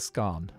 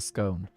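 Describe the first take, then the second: First: The vowel rhymes with gone. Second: The vowel rhymes with own. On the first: The scone has already been eaten. "it's not scone till it's gone. So scone is past tense" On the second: The scone has not been eaten yet. "Scone is present tense or future tense"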